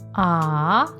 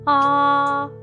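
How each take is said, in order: First: The pitch rises from mid to high. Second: The pitch stays high and level. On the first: "This tone requires your voice to go up" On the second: "you must keep your voice high and flat"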